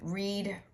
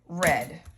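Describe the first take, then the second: First: It uses the present-tense pronunciation. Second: It uses the past-tense pronunciation. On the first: The action happens now or habitually. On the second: The action happened in the past.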